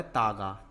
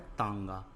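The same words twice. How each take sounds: First: तागा with a purely oral aa straight into g; तागा as "taaga"; missing nasal. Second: तांगा with a nasal aa before the g; तांगा as "taanga"; nasalized vowel. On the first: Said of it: "तो तागा नहीं होता". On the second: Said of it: "क्या होता है". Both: Shown as a demonstration.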